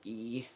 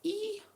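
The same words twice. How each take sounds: First: The squeal is made in a deep voice. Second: The squeal is made in a higher voice.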